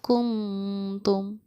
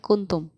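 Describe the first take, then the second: First: The n is nasalized and held briefly. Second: The n is pronounced clearly and distinctly. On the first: "इख्फा के साथ" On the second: "simple इजहार के साथ"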